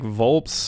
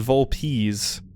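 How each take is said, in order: First: The word ends in a short 'ps' sound. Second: The word ends in a 'peez' sound. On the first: The speaker calls it wrong. "I didn't know if it was like Volps or Volpes" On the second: The speaker calls it right. "but it's Volpes. V uh, like V O W L P E E Z"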